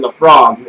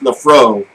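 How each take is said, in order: First: The name ends with a hard g sound. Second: The name ends on a vowel, with no g. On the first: This is the speaker's own habitual way of saying it. "I always called it Lafrogue" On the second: This is how a fan of the whisky says it. "he said it's pronounced Lafro"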